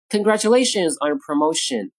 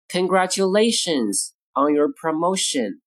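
First: Said in the usual way. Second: Measured, word-by-word phrasing. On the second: Shown as a demonstration. Model phrase, slow take first.

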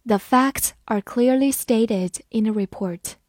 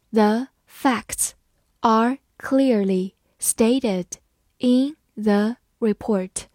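First: Said in the usual way. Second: Slow, phrase by phrase read-aloud. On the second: Shown as a demonstration. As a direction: read it slowly in chunks for students to follow. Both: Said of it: "好，慢慢来读。".

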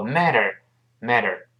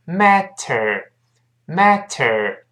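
First: "matter" run together with a soft d-like t; quicker MATTER. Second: "matter" very slowly, full t and curled r. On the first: Teacher showing connected speech, quicker flapped "matter". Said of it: "读快之后". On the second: Teacher breaking the word down, very slow "matter". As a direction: stretch out "matter" syllable by syllable, MAT-ter. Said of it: "读非常慢是". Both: Shown as a demonstration.

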